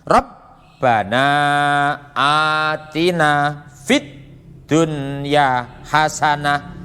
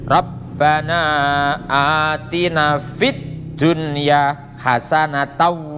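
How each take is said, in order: First: The last word ends in the pausal 'hasanah'. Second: The last word ends in the full 'hasanatan'. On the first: The reading stops after this word. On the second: The reading continues without stopping.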